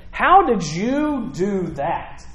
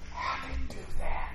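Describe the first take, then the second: First: Slow, drawn-out demand with higher pitch; incredulous questioning. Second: Hushed, voiceless whisper; amazed whisper. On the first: Council questioning Peter and John about the healing, slowly incredulous. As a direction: stretch each word in disbelief. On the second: Preacher voicing onlookers wondering about the miracle, whispered. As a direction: whisper it as a stunned bystander would. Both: Acted.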